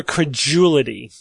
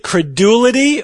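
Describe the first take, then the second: First: Credulity as kreh-JOO-lih-tee, the D softened. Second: Credulity with a hard D, kreh-DOO-lih-tee; credulity as kreh-DOO-lih-tee, no J sound. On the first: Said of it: "we pronounce it credulity usually". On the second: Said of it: "Is it credulity or credulity". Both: Shown as a demonstration.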